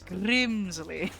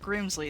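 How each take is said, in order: First: The R is rolled with a trill. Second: The R is a plain, unrolled R. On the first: The speaker calls it right. "You gotta roll the R" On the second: The speaker calls it wrong. "It's not Grimsley"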